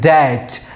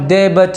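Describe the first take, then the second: First: The b sound is silent in the word. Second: The b sound is pronounced in the word. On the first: The speaker calls it right. "इसे बोलेंगे डैट" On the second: The speaker calls it wrong. "इसे हम दे बच नहीं बोलेंगे"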